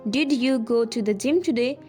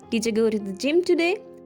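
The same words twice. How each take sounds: First: Each word is said fully and separately. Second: Did you is squeezed together into a reduced form. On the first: "instead of saying" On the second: "you may sound like"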